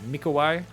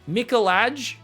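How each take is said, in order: First: The middle consonant is a W sound. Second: The middle consonant is an L sound. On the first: This approximates the native pronunciation. The speaker calls it right. "but Mikowai is, I believe, the correct pronunciation" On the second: This is an Australian reading of the spelling. The speaker calls it wrong. "that's how an Australian would say it"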